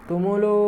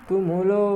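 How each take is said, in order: No difference in how they are said.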